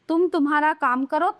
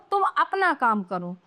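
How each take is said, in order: First: "तुम्हारा काम करो" held up; "तुम्हारा" read as the faulty form; wrong example. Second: "अपना" drawn out slowly; slow, settling reading of "अपना काम करो"; correct example. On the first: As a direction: leave "करो" hanging. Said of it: "ये तो अशुद्ध वाक्य हैं". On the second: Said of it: "ये शुद्ध हैं". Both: Shown as a demonstration.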